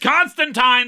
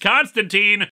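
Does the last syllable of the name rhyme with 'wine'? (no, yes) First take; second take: yes; no. First: The last syllable rhymes with wine. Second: The last syllable does not rhyme with wine. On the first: This is the version used in the comic. "It's Constantine there, so I'm saying Constantine" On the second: This is the version used in the TV adaptation. "in the Arrowverse, it's Constantine"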